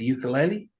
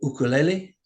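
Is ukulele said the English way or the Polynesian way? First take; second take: English; Polynesian. First: Ukulele is said with an everyday English pronunciation. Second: Ukulele is said with a Polynesian-style pronunciation.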